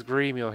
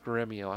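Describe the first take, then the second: First: Gremio with a long "ee", GREE-mee-oh; Gremio, first vowel as in "green"; first pronunciation of Gremio. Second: Gremio with a short "e", GREM-ee-oh; Gremio, first vowel as in "gem"; alternative pronunciation of Gremio. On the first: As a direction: say Gremio as "Greemio". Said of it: "Or is it pronounced Gremio?". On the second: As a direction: say Gremio as "Gremmio". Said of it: "is it pronounced". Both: Shown as a demonstration.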